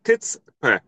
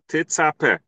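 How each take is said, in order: First: The word sounds like tits-pe, with no middle vowel. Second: The word sounds like te-tza-pa, with an open middle vowel. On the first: The speaker calls it right. "it should be t, right? T. Vatzadi b'shva, it should be tits" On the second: The speaker calls it wrong. "we say the tof with a sha, te, v'atzadi b'pasach"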